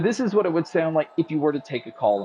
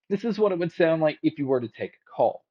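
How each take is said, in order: First: The voice is heard over background crowd noise. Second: The voice is heard without background crowd noise. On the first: "here's the mic test with the crowd noise being played" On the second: "here is the mic test using the One More Comfo Buds"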